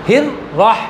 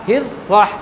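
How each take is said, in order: Both takes have the same delivery.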